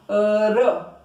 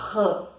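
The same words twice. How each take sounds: First: The tongue makes one quick tap. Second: The sound rasps and vibrates in the throat. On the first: It stands for a single R between vowels. "A língua, ela dá um pulinho" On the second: It stands for a double R between vowels. "a garganta treme"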